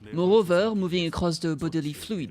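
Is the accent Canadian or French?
French. It is spoken in a French accent. "What if he's not French?"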